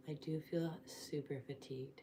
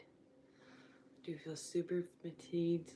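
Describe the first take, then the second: First: Said in the usual way. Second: Dragging every word slowly; slow and drawn out. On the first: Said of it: "repeats line slower". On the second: Real, not acted. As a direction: stretch it out, worn out. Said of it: "repeats line drawn out".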